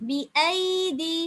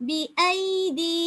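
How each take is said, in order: No difference in how they are said.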